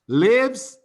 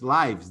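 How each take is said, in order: First: The vowel is short, as in 'give'. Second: The vowel is long, as in 'knife'. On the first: It is the verb for where someone lives. "Lives is where we live" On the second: It is the plural of life. "Here's lives, the plural of life"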